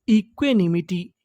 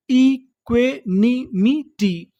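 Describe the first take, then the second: First: Said in the usual way. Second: "equanimity" very slowly, each syllable apart; broken into syllables. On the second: Shown as a demonstration. Teacher reading the full word to learners, syllable by syllable. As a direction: sound out "equanimity" one beat at a time. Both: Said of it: "टुकड़ों में तोड़-तोड़ के पढ़ना है".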